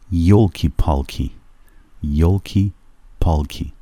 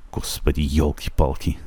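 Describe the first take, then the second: First: Playful exclamation; a joking 'oh dear'; mock dismay. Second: Half-hearted mock sigh of dismay; a softer joking 'oh my goodness'; mock exasperation. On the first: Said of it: "به شوخی بگن که ای داد بیداد". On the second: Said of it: "اگه کسی بخواد بگه ای بابا". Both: Shown as a demonstration.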